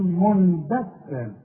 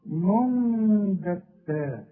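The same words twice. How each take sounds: First: منبتا said with plain noon, no ghunna; wrong clear noon. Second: منبتا with slow hummed meem ghunna; correct iqlab. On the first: Teacher mimics mistake to avoid, plain noon. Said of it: "اوعى تقول". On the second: Teacher models correct recitation, slow ghunna. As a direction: hold the nasal hum in منبتا. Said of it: "شوف". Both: Shown as a demonstration.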